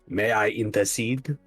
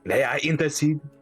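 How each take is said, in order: First: It is spoken with a French accent. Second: It is spoken with no French accent.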